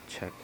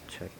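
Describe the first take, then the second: No difference in how they are said.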